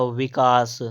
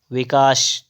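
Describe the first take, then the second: First: "विकास" ending in plain s; correct sibilant. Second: "विकास" ending in sh; wrong sibilant. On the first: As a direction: say "विकास" as vikaas. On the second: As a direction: say "विकास" as vikaash. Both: Shown as a demonstration. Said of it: "तो हो जाएगा".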